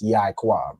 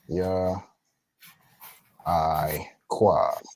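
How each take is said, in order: First: The first two syllables run together as one. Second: The first two syllables are said apart. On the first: The speaker calls it wrong. "the Ya and the I are actually connected" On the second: The speaker calls it right. "they would actually be separate"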